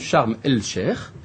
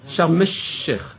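First: The L of the article is pronounced. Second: The L is dropped and the sh is doubled. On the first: The speaker calls it wrong. "לא אומרים" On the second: The speaker calls it right. "אלא"

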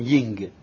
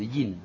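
First: The word ends with an ng sound. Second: The word ends with an n sound. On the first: The speaker calls it wrong. "כי אולי אומרים יינג. זה לא נכון" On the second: The speaker calls it right. "זה יין"

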